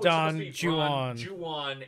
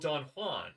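First: Juan is said the anglicized way. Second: Juan is said the Spanish way. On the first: This is the pronunciation that fits the poem's rhyme. "he's mispronouncing it on purpose" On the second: This is the common everyday pronunciation. "everyone says, oh, you're a real Don Juan"

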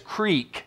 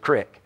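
First: It is said with a standard American pronunciation. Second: It is said with a Southern American pronunciation. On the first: "The real way to say it is creek" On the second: "but in Southern English, that's the creek"

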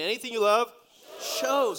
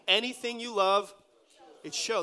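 First: It is said forcefully, with strong conviction. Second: It is said casually, as a plain statement.

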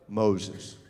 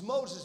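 First: It is said in a put-on deep voice. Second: It is said in a normal speaking voice. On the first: "I wish I had a deep voice like a real man has" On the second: "No, let me say it another way"

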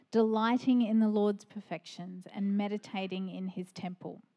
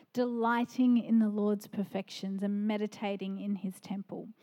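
No difference in how they are said.

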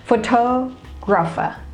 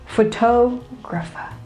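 First: The stress falls on the second syllable. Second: The same.

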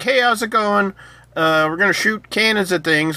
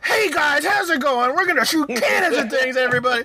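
First: It is said with low, flat energy. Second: It is said with high, lively energy.

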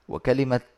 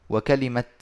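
The two takes are said the same way.

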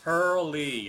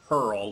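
First: The name is said with two syllables. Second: The name is said with one syllable. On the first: The speaker calls it right. "Yes, Hurley" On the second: The speaker calls it wrong. "before I was pronouncing it Hurl, like hurl a stone"

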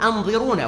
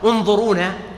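First: The word begins with a firm glottal stop. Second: The word begins with a connecting, droppable vowel. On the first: Give us time to catch up. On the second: Wait for us.

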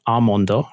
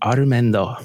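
First: The first vowel has no r sound after it. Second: The first vowel is followed by an r sound. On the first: The speaker calls it right. "which is almondo, right?" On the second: The speaker calls it wrong. "And I said armendo"

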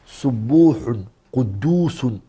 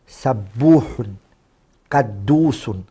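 First: The first vowel of each word is 'u'. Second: The first vowel of each word is 'a'. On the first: "You can also do ضَمُّ السِّينِ وَالْقَافِ" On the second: "You place a fatha on the seen and the qaf"

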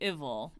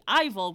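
First: The name starts with a short i vowel. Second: The name starts with a long i vowel. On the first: "sounds like Tribble" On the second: "which sounds like Fival"

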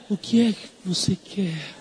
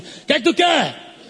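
First: It is said in a soft, gentle tone. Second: It is said in a harsh, rough tone.

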